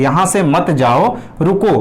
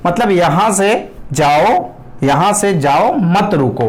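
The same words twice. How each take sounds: First: "यहाँ से मत जाओ," then "रुको", with the break after "जाओ"; pause placed after jao. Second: "यहाँ से जाओ," then a break before "मत रुको"; slow on "मतलब यहाँ से जाओ", with the break moved before "मत"; pause moved before mat. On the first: Teacher demonstrates the intended meaning, pausing after "जाओ". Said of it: "आपने यहाँ काम मारा है". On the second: Teacher shows the misheard meaning, with the break moved before "मत". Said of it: "उसने क्या समझ लिया". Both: Shown as a demonstration.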